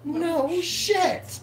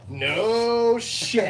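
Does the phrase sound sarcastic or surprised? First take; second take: surprised; sarcastic. First: It is said in a surprised, impressed tone. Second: It is said in a dry, sarcastic tone. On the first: That is new information. "you enlighten me. You say something I never knew before" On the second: That was obvious. "it could be something sarcastic"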